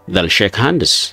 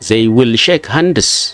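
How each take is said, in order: First: The words 'they will' are contracted to one syllable. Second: The words 'they will' are said in full. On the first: The speaker calls it right. "They will ka jedhu they'll jenna" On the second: The speaker calls it wrong. "Akkana jenna? No"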